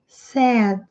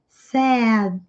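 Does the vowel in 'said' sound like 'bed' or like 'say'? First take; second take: like bed; like bed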